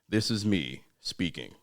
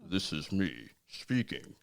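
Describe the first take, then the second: First: Spoken in a normal, natural speaking voice. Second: Spoken out of the side of the mouth. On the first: "my regular speaking voice" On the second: "when you contort your mouth to the side"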